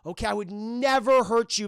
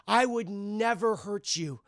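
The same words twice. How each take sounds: First: Said in the usual way. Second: Slow sinister take. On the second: Retold or imitated. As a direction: draw it out like a false promise. Norman's line, slow delivery.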